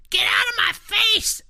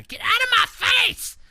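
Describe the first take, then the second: First: Put-on high shrieking toddler yell; toddler screaming. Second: High shrieking yell; toddler shout. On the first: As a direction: scream it like a furious two-year-old. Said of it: "I hear Jenna say". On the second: Retold or imitated. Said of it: "And so, yeah".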